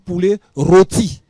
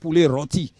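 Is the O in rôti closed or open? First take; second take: closed; open. First: The O in rôti is long and closed. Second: The O in rôti is short and open. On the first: The speaker calls it right. "On dit poulet rôti. / il devient un grand O" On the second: The speaker calls it wrong. "On ne dit pas poulet rôti"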